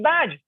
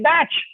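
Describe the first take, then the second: First: The word ends with a voiced j sound. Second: The word ends with a voiceless ch sound. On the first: The speaker calls it right. "it's badge" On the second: The speaker calls it wrong. "they say batch"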